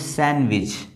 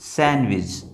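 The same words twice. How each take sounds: First: The d sound is silent. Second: The d sound is silent.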